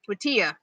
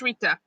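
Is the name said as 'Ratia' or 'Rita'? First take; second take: Ratia; Rita. First: The name is said as Ratia. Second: The name is said as Rita. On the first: The speaker calls it wrong. "The second was Ratia" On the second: The speaker calls it right. "First was Rita"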